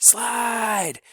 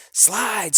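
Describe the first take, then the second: First: Even higher, changed-voice scream; held, piercing repeat of the cry. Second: High, loud one-word scream; jumping urgent scream; screamed command. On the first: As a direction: stretch the scream out longer. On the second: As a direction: scream it from the bench. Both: A narrator's reading. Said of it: "screamed Clebo".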